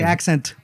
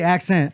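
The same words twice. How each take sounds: First: The T sound in the word is pronounced. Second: The T sound in the word is dropped. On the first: "I don't say" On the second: "there was no T"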